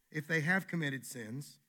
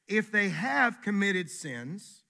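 First: Said in the usual way. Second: Slow and louder, leaning hard on "have committed sins"; drawn-out "if they HAVE committed sins", pitched higher; slow emphatic stress. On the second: Shown as a demonstration. Preacher stressing the condition to his congregation, slow and loud.

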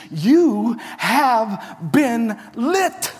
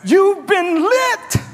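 First: Slow, weighty "You have been lit"; slow emphasis. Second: Much higher, louder, slow "lit" shouted; preached shout. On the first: Shown as a demonstration. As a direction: draw it out for weight. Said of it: "Literally, Jesus is saying this". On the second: Acted. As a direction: shout it out like a revelation. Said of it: "Jesus is saying this".

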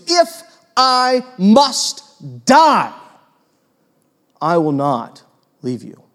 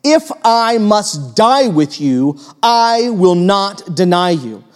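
First: Peter's slow heavy vow, fading to a hush; drawn-out vow. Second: Slow, weighty promise stretched out; slow emphatic oath, never stressed; emphatic vow. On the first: Retold or imitated. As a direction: stretch out the condition, then fade. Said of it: "He goes". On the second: A narrator's reading. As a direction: lean hard on every word of the vow. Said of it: "said emphatically".

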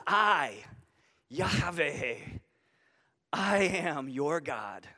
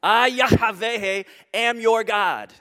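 First: Soft, slow, low I, Yahweh, I am your God; intimate and personal. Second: Slow and loud, I and Yahweh stretched out; booming declaration. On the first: God speaking tenderly to his freed people, soft and slow. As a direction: speak it gently, close and personal. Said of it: "It's personal". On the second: Preacher declaring God's name to the church, loud and slow. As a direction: proclaim I, Yahweh like thunder. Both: Shown as a demonstration.

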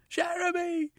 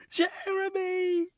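First: Very high panicked scream; drowning woman screaming for her lover; screaming his name. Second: Very high, slow, sobbing scream of his name; drowning woman's last sobbing cry. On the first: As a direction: call for him as you are pulled under. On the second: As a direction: drag the name out through tears. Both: A narrator's reading. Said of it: "she screamed".

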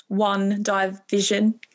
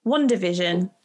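First: "one division" drawn out very slowly, split as two words, "one" then "division"; mock mishearing. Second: "WandaVision" run together as one word, "Wanda" then "Vision"; own pronunciation. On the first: Host teasing a guest's accent, slow mocking echo. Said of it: "it sounds like you're saying one". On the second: Shown as a demonstration. Host showing how she says the show name, plain and smooth. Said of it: "Say it".

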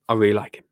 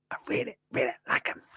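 First: Said in the usual way. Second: Soft unvoiced whisper; whispered repeat. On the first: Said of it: "repeats liking". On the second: Shown as a demonstration. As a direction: breathe it as a secret. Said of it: "whispered repeat".

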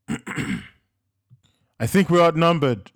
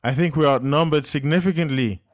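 First: Slow, loud, higher shout; yelled, drawn out. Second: Loud, higher urgent reply; yelling back. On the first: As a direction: stretch the words as a yell. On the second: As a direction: shout the bad news over gunfire. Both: A narrator's reading. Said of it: "Joseph yelled back".

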